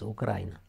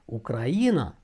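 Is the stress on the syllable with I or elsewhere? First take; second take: elsewhere; I syllable. First: The stress is not on the I syllable. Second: The stress is on the I syllable. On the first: The speaker calls it wrong. "auzim des Ucraina" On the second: The speaker calls it right. "cu accentul pe I"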